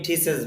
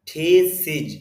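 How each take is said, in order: First: The word ends with an 'es' sound. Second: The word ends with an 'iz' sound. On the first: The speaker calls it wrong. "যদিও অনেকে থিসেস বলে" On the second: The speaker calls it right. "সিজ হবে এখানে এটা"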